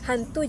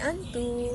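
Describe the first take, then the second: First: The word begins with an h sound. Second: The word begins with a vowel, no h.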